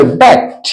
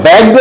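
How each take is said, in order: First: बैक्ट as "bakt", released T at the end; final -ed as T. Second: बैक्ड ending in a voiced "de"; the mistaken D ending on बैक्ड; wrong final D. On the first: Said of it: "अंत में टी का sound आना चाहिए". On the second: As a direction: say बैक्ड as "back-de". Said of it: "हम लोग बैक्ड नहीं बोलेंगे". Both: Shown as a demonstration.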